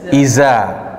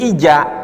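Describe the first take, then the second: First: The middle consonant is a buzzing z sound. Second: The middle consonant is a j sound. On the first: "Za menjadi huruf zai" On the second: "Bisa berubah menjadi huruf jim"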